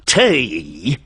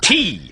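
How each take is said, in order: First: The vowel sounds like 'ay', a cockney glide. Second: The vowel sounds like a long, pure 'ee'. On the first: The speaker calls it wrong. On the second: The speaker calls it right.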